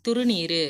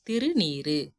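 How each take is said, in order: First: திருநீரு said "thuru-neeru", u in the first syllable; wrong form. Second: திருநீரு said "thiru-neeru", i in the first syllable; correct form. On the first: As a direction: round the first vowel of திருநீரு to u. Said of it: "அப்படி எழுதக்கூடாது". (திருநீரு என்பதை "துருநீரு" என) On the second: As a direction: keep a clear i at the start of திருநீரு. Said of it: "திருன்றது சிறப்பு கருதி வரும்". (திருநீரு என்பதை "திரு" என இகரத்துடன்) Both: Shown as a demonstration.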